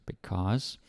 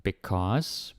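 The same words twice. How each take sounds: The two takes are said the same way.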